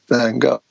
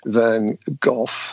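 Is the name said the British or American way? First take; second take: American; British. First: It is said the American way. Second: It is said the British way.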